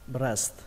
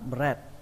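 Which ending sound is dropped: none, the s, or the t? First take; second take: none; the s. First: Both the s and t sounds are clearly said. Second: The s sound before the final t is missing. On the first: Listeners understand the word most clearly. The speaker calls it right. "các bạn phải có âm sờ và âm tờ như thế này" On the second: Listeners would not understand the word at all. The speaker calls it wrong. "Nếu như không có âm sờ này là nó hoàn toàn sai"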